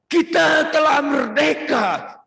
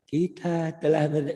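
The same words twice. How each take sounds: First: Rousing orator's shout, high and slow; loud, high, drawn-out speech-making; Bung Karno. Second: Unrousing, restrained delivery; ordinary speech-making. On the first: Retold or imitated. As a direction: proclaim it to a huge crowd. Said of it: "Orang yang Bung Karno dengan orang". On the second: Shown as a demonstration. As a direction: read the proclamation with no oratory. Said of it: "pidatonya biasa-biasa saja beda".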